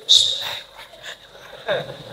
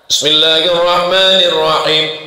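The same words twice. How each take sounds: First: It is recited quietly, almost under the breath. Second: It is recited aloud, clearly audible.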